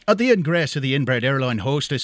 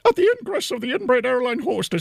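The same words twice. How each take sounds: First: It is said in an Irish man's voice. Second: It is said in an Irish woman's voice.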